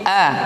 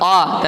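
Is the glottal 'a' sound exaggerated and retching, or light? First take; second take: light; exaggerated. First: The glottal sound is light, deep in the throat. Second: The glottal sound is forced and retching. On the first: The speaker calls it right. "tapi a, a yang dia masuk aqsal halqa" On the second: The speaker calls it wrong. "bukan a"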